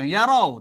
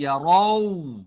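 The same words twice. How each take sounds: First: "yarau" said short, ending not held; wrong unrounded vowel. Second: "yarau" slow, ending rounded to o; rounded o sound. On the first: Teacher shows the mistake, "yarau" short and unrounded. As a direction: cut "yarau" short without the long rounded glide. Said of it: "Bukan yarau". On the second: Teacher corrects the mistake, "yarau" long and rounded. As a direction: draw out "yarau" into a rounded o-u glide. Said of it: "tapi yarau". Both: Shown as a demonstration.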